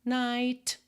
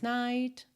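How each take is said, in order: No difference in how they are said.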